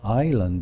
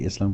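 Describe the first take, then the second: First: No s sound is pronounced in the middle. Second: An s sound is pronounced in the middle. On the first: The speaker calls it right. "we say island in English" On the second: The speaker calls it wrong. "we don't say Island"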